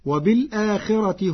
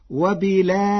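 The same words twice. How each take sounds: First: Said in the usual way. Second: وبالآخرة with the hamza dropped and its vowel moved back, wabilakhira, with a thin light r; وبالآخرة said wabilakhira, the r kept thin; Warsh reading. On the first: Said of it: "فتصير وبالآخرة". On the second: Shown as a demonstration. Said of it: "بنقل حركة الهمزة إلى الساكن قبلها". (وبالآخرة بالنقل وترقيق الراء)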